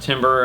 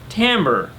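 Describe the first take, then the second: First: It sounds exactly like the word timber. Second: It does not sound like the word timber. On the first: The speaker calls it wrong. "I had heard it pronounced timber" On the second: The speaker calls it right. "is pronounced timbre"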